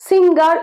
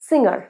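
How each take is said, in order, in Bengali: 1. ng-এর পরে একটি কঠিন g ধ্বনি উচ্চারিত হয়। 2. ng-এর পরে কোনো কঠিন g ধ্বনি উচ্চারিত হয় না।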